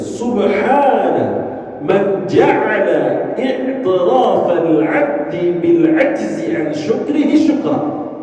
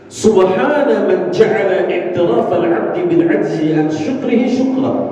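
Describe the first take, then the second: First: The sentence is spoken at a slower pace. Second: The sentence is spoken at a quicker pace.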